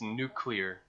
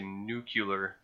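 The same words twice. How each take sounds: First: The second syllable sounds like 'lee'. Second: The second syllable sounds like 'yoo'. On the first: The speaker calls it right. "It's nuclear" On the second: The speaker calls it wrong. "It's like when people say nuclear"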